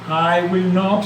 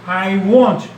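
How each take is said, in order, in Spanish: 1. 'Will not' se dice como dos palabras completas. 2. 'Will not' se contrae en una sílaba: won't.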